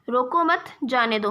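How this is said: The pause comes after 'मत'.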